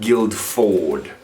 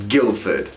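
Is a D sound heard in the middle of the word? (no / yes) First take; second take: yes; no. First: A D sound is heard in the middle. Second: No D sound is heard in the middle. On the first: The speaker calls it wrong. "and not Guildford" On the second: The speaker calls it right. "You don't pronounce it. It doesn't even exist"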